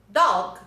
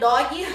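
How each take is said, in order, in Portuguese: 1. É dita com pronúncia inglesa. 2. É dita com sotaque do português brasileiro.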